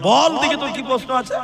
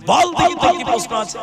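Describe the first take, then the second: First: Put-on higher-pitched, indulgent challenge to a child; dismissive challenge. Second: Forced, slightly raised challenge; barely managed bravado. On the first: Preacher to a cheeky small boy, dismissive challenge. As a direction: brush the little boy off, pitched up. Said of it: "তুই কত ছোট ছেলে". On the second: Retold or imitated. Preacher somehow managing his fear before the boy, forced bravado. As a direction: push it out as if hiding the nerves. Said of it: "কোনো রকম করে manage করে বলছে".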